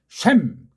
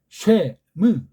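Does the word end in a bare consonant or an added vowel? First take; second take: bare consonant; added vowel. First: The word ends crisply on a bare final consonant. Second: The word ends with an added extra vowel. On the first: This is how Koreans can read it. "우린 쉔 그렇게 읽을 수 있고" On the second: This is how Westerners read it. "그게 걔네들이 붙인 건데"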